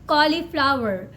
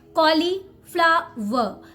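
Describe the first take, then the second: First: The final R is pronounced. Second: The final R is silent. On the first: "if you're working on your American pronunciation, then you can call it cauliflower" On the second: "if you're working on your Indian pronunciation, then call it cauliflower. Last R is silent here"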